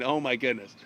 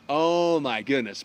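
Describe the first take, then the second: First: Low, subdued dread; a small sinking aside to oneself. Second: Slow, stretched-out dismay; drawn-out dread. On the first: Lancelot thinking about his night with the witch, low dread. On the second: Lancelot facing his wedding night, slow mock dread. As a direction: let the dismay sink in, dragging the words. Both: Acted.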